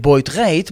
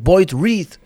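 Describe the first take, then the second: First: The surname has a Dutch 'ij' vowel sound. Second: The surname has an English 'ee' vowel sound. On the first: The speaker calls it right. "Wij zeggen altijd Boyd rijdt" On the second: The speaker calls it wrong. "hoorde ik Maurice Graaf zeggen Boyd read"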